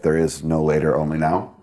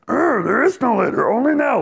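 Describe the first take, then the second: First: It is said in a normal voice. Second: It is said in a Yoda voice.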